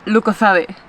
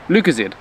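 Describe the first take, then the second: First: LUCOZADE as "loo-ko-THAH-deh"; Spanish pronunciation. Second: LUCOZADE as "LOO-kuh-zade"; English pronunciation. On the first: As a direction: say Lucozade in four syllables with th for z. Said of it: "This is called Lucozade". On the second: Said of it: "I'm gonna say it in English". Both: Shown as a demonstration.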